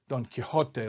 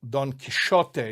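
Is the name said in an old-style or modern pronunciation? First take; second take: modern; old-style. First: The X gets the usual modern pronunciation. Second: The X gets an older Spanish pronunciation. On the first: "like we say it" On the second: "in medieval Spanish pronunciation, that letter X was probably pronounced more like"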